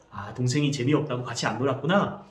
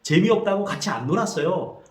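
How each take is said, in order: First: Put-on plain calm echo of the boy's words; mother reflecting the older brother's feelings; mother's empathetic echo. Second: Lightly voiced older brother, higher; older brother answering his mother; older brother's reply. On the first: Shown as a demonstration. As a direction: repeat it back gently. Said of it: "아, ... 놀았구나". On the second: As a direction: explain why he wouldn't play. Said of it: "그때 형이 말합니다".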